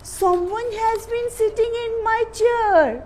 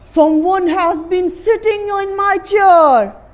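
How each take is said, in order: First: It is said in a soft voice. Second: It is said in an angry voice.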